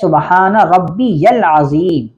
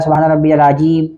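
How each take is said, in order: First: The phrase is pronounced carefully, every sound articulated. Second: The phrase is pronounced sloppily, with sounds slurred. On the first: The speaker calls it right. "असल लफ्ज़ है" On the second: The speaker calls it wrong. "कोई कहता है"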